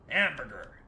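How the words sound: The word is said in an American accent. The speaker calls it right. "you see it with an American accent"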